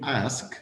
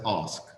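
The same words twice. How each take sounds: First: The vowel is short and flat, American style. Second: The vowel is long and open, British style. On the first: "instead of saying ask" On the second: "we pronounce it as ask"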